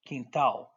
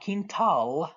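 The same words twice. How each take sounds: First: "quintal" with AL turned into ow, falling; Portuguese pronunciation. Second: "quintal" with a full English L at the end, drawn out; wrong, pronounced L. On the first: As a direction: swallow the L in "quintal", ending on ow. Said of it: "the A L is an ow sound". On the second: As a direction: really pronounce the final L in "quintal". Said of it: "It's not quintal". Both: Shown as a demonstration.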